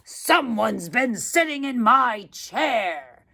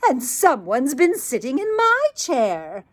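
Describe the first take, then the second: First: It is said in a great, huge voice. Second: It is said in a medium-sized voice.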